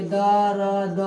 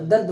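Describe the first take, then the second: First: "दर्द" split into two syllables as da-rad; wrong pronunciation. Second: "दर्द" as one tight syllable, dard; correct pronunciation. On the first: Teacher showing students the mistaken reading, split as da-rad. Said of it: "तो दर्द गलत हो जाता है". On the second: Teacher giving students the right reading, one clipped syllable. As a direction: clip "दर्द" together as dard with no vowel between r and d. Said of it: "दर्द होता है". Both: Shown as a demonstration.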